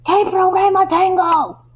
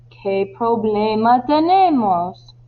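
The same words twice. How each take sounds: First: High, loud, exasperated yell; frustrated shout. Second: Slow, annoyed question. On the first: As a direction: shout the question at him in frustration. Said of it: "está muy frustrado y le grita". (grito de frustración) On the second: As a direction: draw the question out in mild irritation. (pregunta lenta y algo molesta) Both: Acted.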